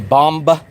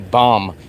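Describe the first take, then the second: First: The word ends with an audible b sound. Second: The word ends on m with no b sound. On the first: The speaker calls it wrong. "Does anyone say bomb? Nobody says bomb" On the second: The speaker calls it right. "They say bomb. B O M"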